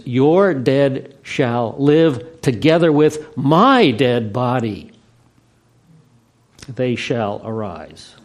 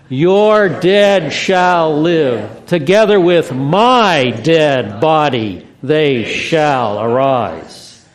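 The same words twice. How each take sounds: First: Slow emphatic reading. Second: Put-on broad singsong kids theatre. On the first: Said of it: "grammar retains all its proper attributes". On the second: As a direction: lead the crowd in a big shout. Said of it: "say it loud and enthusiastically". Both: Shown as a demonstration.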